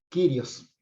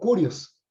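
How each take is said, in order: First: The word is said in the modern Greek style. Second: The word is said in the Erasmian style. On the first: "esa es la pronunciación del griego moderno" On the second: "como se lo pronuncian eh, quienes aprendieron la pronunciación erasmiana"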